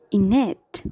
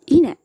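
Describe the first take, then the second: First: Said in the usual way. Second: Innate, long held nn, said higher and louder; innate with doubled n. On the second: Shown as a demonstration. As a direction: hold the n in innate twice as long. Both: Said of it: "geminates are also many a times articulated".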